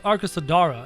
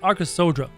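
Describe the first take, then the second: First: An extra vowel is sounded between d and r. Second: No vowel is sounded between d and r. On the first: The speaker calls it wrong. "So it's not the Arkasodara" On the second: The speaker calls it right. "it's Arkasodra. ... an A that's not really pronounced"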